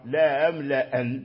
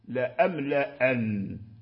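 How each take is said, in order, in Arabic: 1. الهمزة الأولى فقط مسهَّلة. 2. كلتا الهمزتين محقَّقتان. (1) "تسهيل الأولى وتحقيق الثانية" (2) "تحقيقهما معا لا أملأن كسائر القراء"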